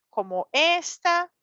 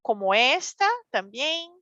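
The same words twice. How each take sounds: First: Said in the usual way. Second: "esta" stressed on the final syllable, rising; accent on esta. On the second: Shown as a demonstration. Teacher showing the accent mark to Spanish learners: "esta" with stressed final syllable. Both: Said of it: "Estos son acentos".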